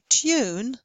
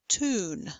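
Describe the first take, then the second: First: A y sound comes before the vowel. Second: No y sound comes before the vowel. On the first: "speakers of British accents would say tune" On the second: "Speakers of American English would say tune"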